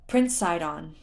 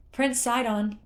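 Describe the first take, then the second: First: Gently getting his attention; gentle address. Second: High, loud, elated call to the prince; jubilant call. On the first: Torafu reassures the stunned prince, gentle address. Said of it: "Torafu said gently". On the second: Torafu hails the prince with good news, jubilant call. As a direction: call out joyfully, voice raised. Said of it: "Torafu called, jubilant". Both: A narrator's reading.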